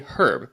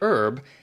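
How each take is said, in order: First: It is said the British way, h pronounced. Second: It is said the American way, h silent.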